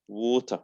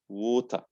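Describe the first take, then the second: No difference in how they are said.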